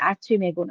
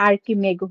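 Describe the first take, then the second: First: The consonant after 'ar' is a ch sound. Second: The consonant after 'ar' is a k sound. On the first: The speaker calls it wrong. "আর্চিমেগু না" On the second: The speaker calls it right. "উচ্চারণটা আর্কিমেগু হবে"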